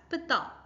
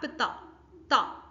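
First: Pita with the first syllable PI stressed and ta light. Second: Pita with ta said light and unstressed, then ta alone. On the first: Teacher showing students the stress, stress on PI. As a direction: lean on PI, let ta fall away. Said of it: "Can you check the stress?". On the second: Teacher pointing out the weak ta syllable, unstressed ta. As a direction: let ta sit unstressed after PI. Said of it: "that t sound is actually not stressed". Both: Shown as a demonstration.

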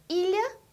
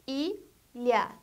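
First: Said in the usual way. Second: "ilha" split into two separate syllables, i, lha. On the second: Shown as a demonstration. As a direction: say "ilha" in two beats with a pause between. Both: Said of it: "A palavra que tem duas sílabas".

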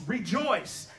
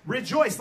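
First: Said in the usual way. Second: Rejoice punched louder, falling hard at the end; louder emphatic Rejoice, the second time. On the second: Shown as a demonstration. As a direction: hit Rejoice with a strong, loud fall. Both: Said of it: "He says it with emphasis twice".

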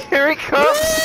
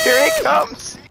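First: Excited call. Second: Far higher, squealing "Here he comes!"; squealing call. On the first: Excited call as Entry approaches. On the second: Gamer squealing with laughter as the trigger-happy teammate comes back. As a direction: squeal it out in glee. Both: Real, not acted.

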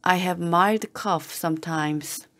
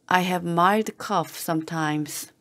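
Both takes have the same delivery.

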